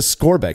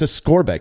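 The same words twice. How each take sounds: First: The middle consonant is said as a hard K. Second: The middle consonant is said as a hard K.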